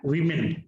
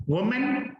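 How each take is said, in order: First: "वीमेन" as wi-min, low and falling; plural pronunciation. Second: "वुमेन" as wu-men, pitched up and rising; singular pronunciation. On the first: Teacher contrasts plural with singular, plural pronunciation. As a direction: say "वीमेन" lower with a "wi" start. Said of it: "इसको बोलते हैं वी मिन". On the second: Teacher contrasts singular with plural, singular pronunciation. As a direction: say "वुमेन" high with a "wu" start. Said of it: "जो plural वाला उच्चारण है". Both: Shown as a demonstration.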